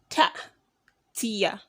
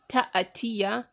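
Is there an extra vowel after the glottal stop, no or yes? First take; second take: no; yes. First: No vowel follows the glottal stop. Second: An extra vowel follows the glottal stop. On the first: The speaker calls it right. "but ta'tiya. You're you're tying up the alif hamza" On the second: The speaker calls it wrong. "Not ta'atiya"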